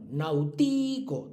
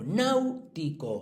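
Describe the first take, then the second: First: The stress falls on a later syllable. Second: The stress falls on the first syllable. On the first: The speaker calls it wrong. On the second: The speaker calls it right. "sí"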